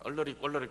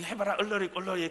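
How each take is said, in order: First: Said in the usual way. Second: Put-on 얼러리 꼴러리 teased in a mild childish singsong; singsong taunt. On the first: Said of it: "얼러리 꼴러리 하면". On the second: Older boy mocking a younger kid, in a mild singsong taunt. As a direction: tease like a kid daring a friend. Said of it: "막 이".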